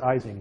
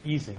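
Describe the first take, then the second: First: The name is said with an American pronunciation. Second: The name is said with a German pronunciation. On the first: "Americans pronounce it Ising" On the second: "Germans pronounce it Ising"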